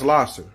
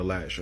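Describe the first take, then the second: First: The middle consonant is an s sound. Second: The middle consonant is an sh sound. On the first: This is the official pronunciation. "It's actually pronounced Lasser" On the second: This is how local people say it. "everybody in Detroit call it Lasher"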